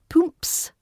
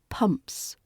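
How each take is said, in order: First: The vowel is not a short uh sound. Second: The vowel is a clear short uh sound. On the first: The speaker calls it wrong. "it's not pumps" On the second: The speaker calls it right. "It's that clear, short uh sound, like in cup or luck"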